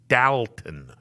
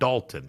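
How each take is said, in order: First: The name is pronounced differently from its spelling. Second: The name is pronounced as its spelling suggests. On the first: The speaker calls it right. "It is Dalton" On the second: The speaker calls it wrong. "It would be spelled like you would say Dalton, but it's not Dalton"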